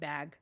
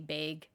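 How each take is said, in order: First: It is said without a Canadian accent. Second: It is said with a Canadian accent. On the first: "instead of bag" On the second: "them say bag"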